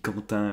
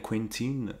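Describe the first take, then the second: First: The name is said with a French pronunciation. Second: The name is said with an American pronunciation. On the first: The speaker calls it wrong. "Moi, je lis Quentin" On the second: The speaker calls it right. "Sans doute, ça doit se dire comme ça"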